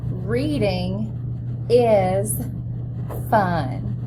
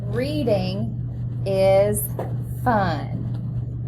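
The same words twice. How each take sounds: First: Each word set apart, lifted; word-by-word model reading. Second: Reading along word by word; choral read-along. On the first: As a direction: read one word at a time for the class. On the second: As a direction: read it together with the children. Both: Shown as a demonstration. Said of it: "Let's read it together".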